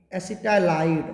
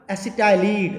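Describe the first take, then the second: First: एसिटाइलाइड with the ending "-lide" said as "-laid"; correct pronunciation. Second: एसिटाइलिड with a short final "lid", like acid-i-lid; wrong pronunciation. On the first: Teacher to class, gives the right form: एसिटाइलाइड ending "-laid". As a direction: stretch the end of एसिटाइलाइड into "laid". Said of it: "एसिटाइलाइड बोलते हैं इसको". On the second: Teacher to class, shows the wrong way: एसिटाइलिड ending "-lid". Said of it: "एसिटाइलिड नहीं बोलते". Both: Shown as a demonstration.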